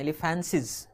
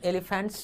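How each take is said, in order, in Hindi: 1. शब्द एक अतिरिक्त 'iz' अक्षर के साथ खत्म होता है। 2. शब्द एक सादी 'ts' ध्वनि पर खत्म होता है। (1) "इनको पढ़ते हैं" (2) "एलिफेंट्स नहीं पढ़ते हैं"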